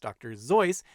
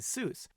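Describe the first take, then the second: First: The name is said the way its owner said it. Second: The name is said the way most people say it. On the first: It is how the name's owner said it. "should actually be pronounced Doctor Seuss" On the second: It is how everyone now says it. "so we all now say Seuss"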